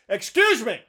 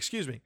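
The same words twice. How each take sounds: First: It is said sharply in a rude tone. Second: It is said quietly and politely. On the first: Patience has run out after being ignored. "That's the tone that you get" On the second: This is a courteous first request to pass. "I'll say it twice quietly"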